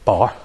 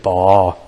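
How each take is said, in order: First: The R sound is barely pronounced. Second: The R sound is drawn out strongly. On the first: "Instead of saying" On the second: "they say bar ... bring that R out in the word"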